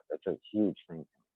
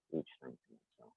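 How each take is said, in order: First: Said in the usual way. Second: Much softer, trailing repeat; soft echo. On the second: Real, not acted. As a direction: repeat it almost to yourself. Repeats phrase, second time softer.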